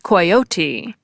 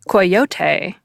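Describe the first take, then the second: First: It is said with a British pronunciation. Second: It is said with a Spanish pronunciation.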